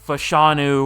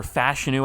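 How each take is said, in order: First: Fashanu as fuh-SHAH-noo; alternative pronunciation. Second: Fashanu as FASH-uh-noo; alternative pronunciation. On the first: Gamer trying out a hard O-line name, Fashanu said fuh-SHAH-noo. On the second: Gamer guessing how you say the name, Fashanu said FASH-uh-noo. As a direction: stress the first syllable of Fashanu, with a flat-A "fash". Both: Shown as a demonstration. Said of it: "I think you say it".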